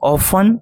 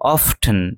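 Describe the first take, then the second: First: The t sound is silent. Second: The t sound is pronounced. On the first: "এখানে টি এর উচ্চারণ নেই" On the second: "আরেকটি আছে"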